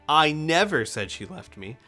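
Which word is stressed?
never. The stress is on the word never.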